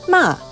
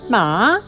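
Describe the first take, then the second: First: The pitch falls through the syllable. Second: The pitch dips first, then rises. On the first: It means scolding. "Ma with a falling pitch means scolding" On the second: It means horse. "Ma with first falling then rising pitch means horse"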